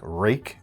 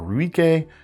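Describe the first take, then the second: First: The name is said as one syllable. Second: The name is said with several syllables. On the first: This is how it is really pronounced. "I think it's pronounced uh, something like Rake" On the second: This is how the spelling reads. "it looks like Ruik or Ruike"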